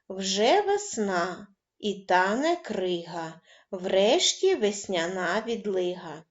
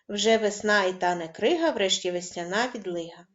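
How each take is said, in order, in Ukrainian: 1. Вимовляється помірним, неквапливим темпом. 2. Вимовляється швидким темпом.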